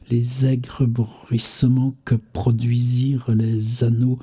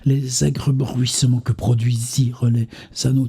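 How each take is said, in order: First: It is read at a slowed-down pace. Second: It is read at an ordinary pace. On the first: "je fais du ralenti" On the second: "vitesse normale"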